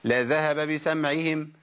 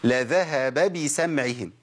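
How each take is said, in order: First: The two b vowels are blurred together lazily. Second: The two b vowels are clearly shaped apart. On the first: The speaker calls it wrong. "لا ده مش صح" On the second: The speaker calls it right. "عندي باء مفتوحة وباء مكسورة"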